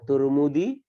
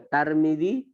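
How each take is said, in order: First: The first syllable has the vowel u. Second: The first syllable has the vowel a. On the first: "boleh dibaca Turmudi" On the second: "boleh dibaca Tarmidi"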